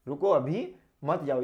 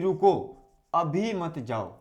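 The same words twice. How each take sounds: First: There is a pause right after the second word. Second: There is a pause right after the first word. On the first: The listener should wait just a minute or two. "रुको अभी, और फिर आपको पूर्ण ये आपका अल्प विराम लगाया" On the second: The listener should stay a long time and not leave now. "रुको और हमने लगा दिया अल्प विराम"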